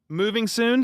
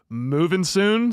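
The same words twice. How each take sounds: First: It is read in a plain, ordinary voice. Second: It is read in a put-on announcer voice.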